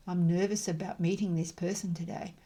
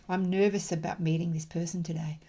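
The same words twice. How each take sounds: The two takes are said the same way.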